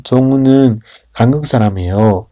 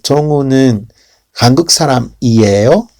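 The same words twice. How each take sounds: First: 사람이에요 falls at the end as a statement; falling statement tune. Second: 사람이에요 rises at the end as a question; rising question tune. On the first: Teacher demonstrating affirmation intonation, falling at the end. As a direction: let 청우는 한국 사람이에요 drop down at the end. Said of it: "para bajada". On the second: Teacher demonstrating question intonation, rising at the end. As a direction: lift 한국 사람이에요 upward like asking. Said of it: "se va a ir a ascender hacia arriba". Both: Shown as a demonstration.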